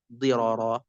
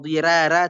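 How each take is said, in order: First: The r is pronounced thick and heavy. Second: The r is pronounced thin and light. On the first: The speaker calls it right. "tetap dirara" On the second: The speaker calls it wrong. "tidak dibaca dirara"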